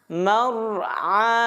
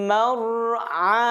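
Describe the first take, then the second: Both takes have the same delivery.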